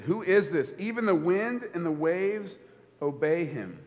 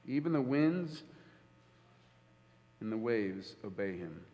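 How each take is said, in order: First: Said in the usual way. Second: Much softer and lower: even the winds and the waves obey him; hushed repeat. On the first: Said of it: "They said". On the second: Shown as a demonstration. Preacher letting the disciples' words sink in, hushed. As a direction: drop to a near hush on the repeat. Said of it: "preacher repeats the line".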